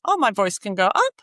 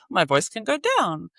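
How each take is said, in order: First: Playful swoop upward on UP; voice sliding up. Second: Playful slide downward on DOWN; voice sliding down. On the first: Child playing with their voice, pitch rising on "up". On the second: Child playing with their voice, pitch falling on "down". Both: Acted. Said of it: "they're playing with their voice".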